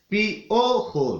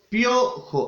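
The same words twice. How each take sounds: First: The i and o are in separate syllables. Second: The i and o glide into one syllable. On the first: The speaker calls it wrong. "aquí no puedo decir piojo" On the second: The speaker calls it right. "si yo digo piojo"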